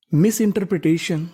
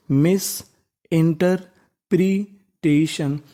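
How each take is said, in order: First: Said in the usual way. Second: interpretation drawn out, each syllable spaced; very slow read. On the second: Shown as a demonstration. Teacher rereading the word with the class, very slowly. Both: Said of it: "एक बार फिर से हम लोग पढ़ लेते हैं".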